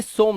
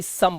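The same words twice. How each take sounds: First: "सोम" with a long O; wrong pronunciation. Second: "सम" with a short uh vowel; correct pronunciation. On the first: Teacher shows exception misread as "सोम", wrong pronunciation. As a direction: misread some as "सोम", rhyming with home. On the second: Teacher models exception "सम", correct pronunciation. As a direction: say some as "सम", like sum. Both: Shown as a demonstration. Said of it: "सोम नहीं सम पढ़ते हैं".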